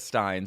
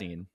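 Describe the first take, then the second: First: The vowel sounds like the one in 'fine'. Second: The vowel sounds like the one in 'seen'. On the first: This is how the artist herself says it. "[name] says says Stein" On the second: This is how others have been heard saying it. "I've only heard [name]"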